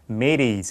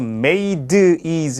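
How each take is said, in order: First: The d is a soft, quick flap. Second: The d is a clear, hard stop. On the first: The speaker calls it right. "우리나라 리을 발음처럼 부드럽게 발음되는 거예요" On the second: The speaker calls it wrong. "made is가 아니고"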